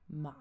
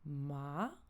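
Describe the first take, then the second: First: The pitch falls and then rises again. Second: The pitch rises from low to high. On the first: "on descend puis on remonte" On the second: "il part du bas vers le haut"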